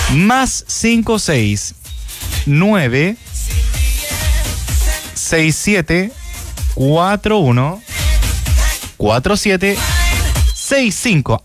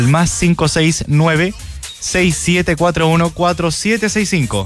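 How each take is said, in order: First: The number is read slowly. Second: The number is read fast.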